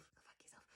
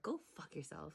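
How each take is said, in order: First: Hushed, spiteful curse; whispered curse at Denethor. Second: Said in the usual way. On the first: Real, not acted.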